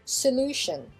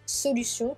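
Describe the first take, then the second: First: It is pronounced with English sounds. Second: It is pronounced with French sounds. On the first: "on mettra un peu l'accent sur la deuxième syllabe" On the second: "on a solution qui devient solution"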